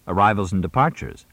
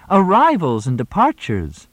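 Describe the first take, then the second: First: Said in the usual way. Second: High loud echo. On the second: A narrator's reading. Moxie echoes much higher, louder.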